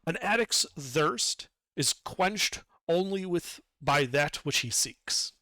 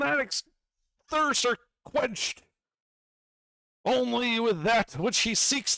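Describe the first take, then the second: First: It is spoken in an ordinary speaking voice. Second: It is spoken in a put-on character voice. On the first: The narrator is repeating it plainly. "I'll speak to it in a normal voice then" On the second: A magical gem is speaking. "the voice of the gem"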